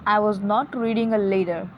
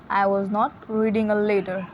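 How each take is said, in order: Both takes have the same delivery.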